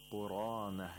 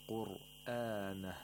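First: It is said without a glottal stop after the r. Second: It is said with a glottal stop after the r. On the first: This follows the Ibn Kathir reading. "say qurana" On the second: This follows the usual Hafs reading. "instead of saying qur'ana"

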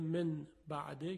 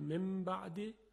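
First: An n sound comes before the b. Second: An m sound comes before the b.

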